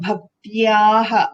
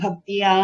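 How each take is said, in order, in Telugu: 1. ఈ పదం హ-ధ్వనితో ముగుస్తుంది. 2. ఈ పదం సాధారణ అచ్చుతో ముగుస్తుంది.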